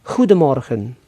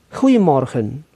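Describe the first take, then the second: The two takes are said the same way.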